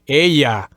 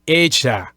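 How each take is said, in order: First: The double L sounds like an English Y. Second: The double L sounds like a ZH sound. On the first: "use kind of a Y sound, as in ella" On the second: "they would say it as a as a Z H sound, just like this"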